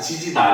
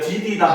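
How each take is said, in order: First: The first two syllables start with j sounds. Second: The first two syllables start with d sounds. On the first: The speaker calls it wrong. "지지다 안 해요" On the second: The speaker calls it right. "우리가 디디다 하지"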